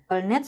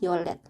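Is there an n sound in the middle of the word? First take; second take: yes; no. First: An n sound is heard in the middle. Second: No n sound; the middle is an l sound. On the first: "Yolnet sama yolet" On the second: "Jadinya adalah yolet"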